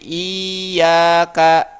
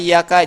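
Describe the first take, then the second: First: The first vowel is drawn out long. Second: The y sound is held doubled, vowel short. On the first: The speaker calls it wrong. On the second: The speaker calls it right.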